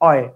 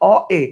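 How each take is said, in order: First: The two vowels are run quickly together. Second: The two vowels are said as separate sounds.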